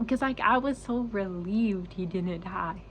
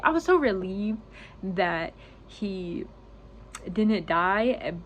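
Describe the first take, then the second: First: Slow, tearful voice on the edge of crying; choked-up relief; starting to cry. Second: Relief breaking through the tears; tearful relief, forced out; crying. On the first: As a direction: hold back the tears as the words come. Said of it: "ooh, I'm gonna start crying". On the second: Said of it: "I'm gonna cry on YouTube". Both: Real, not acted.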